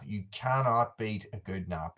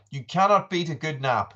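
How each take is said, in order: First: Softer, more spaced-out "cannot beat a good nap"; measured emphatic repeat. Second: Higher, lively declaration; emphatic enthusiasm. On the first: Streamer repeating his nap verdict, softly emphatic. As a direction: repeat it with weight on "cannot", voice dropped. Same line repeated with deliberate weight. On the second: Streamer greeting Chippy about naps, keenly emphatic. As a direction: say it keenly to a friend. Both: Real, not acted.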